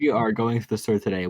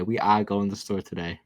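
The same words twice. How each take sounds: First: "are" with its R fully sounded; American R. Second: "are" as "ah", R dropped; imitated New Zealand R. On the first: American demonstrating both ways of saying R. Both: Shown as a demonstration.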